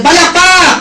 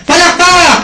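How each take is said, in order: First: Loud, high call to clap; clap cue shout. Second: Loud, high shouted call; clap cue shout. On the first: Seminar speaker rallying the crowd to clap, loud high call. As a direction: rouse the room with a shouted cue. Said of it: "Sige nga, practice natin". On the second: Speaker repeating the clap drill with the audience, shouted cue. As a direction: shout it out to wake the room. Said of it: "Ulitin nga natin". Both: Shown as a demonstration.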